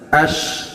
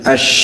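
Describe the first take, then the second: First: The shin is said with the tongue held tight. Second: The shin is spread wide with a strong hiss. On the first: The speaker calls it wrong. "ash terlalu rapat juga salah" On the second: The speaker calls it right. "harus melebar benar-benar keluar suara kayak muncrat"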